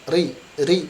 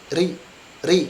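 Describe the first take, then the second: The two takes are said the same way.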